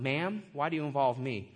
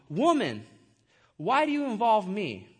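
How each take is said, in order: First: Low, understated respectful question; formal, polite. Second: Blunt address to his mother; harsh, rude. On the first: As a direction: address a mother politely, pitched lower. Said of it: "just a formal way to address". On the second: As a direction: read it as a curt-sounding rebuke, a little forceful. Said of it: "it does sound kinda harsh". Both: Acted.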